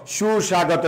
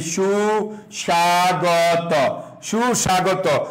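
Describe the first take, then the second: First: Said in the usual way. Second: সুস্বাগত drawn out slowly syllable by syllable; slow spelled out. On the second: Shown as a demonstration. Teacher to class, slowly drawing out সুস্বাগত. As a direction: stretch সুস্বাগত slowly so students catch each part.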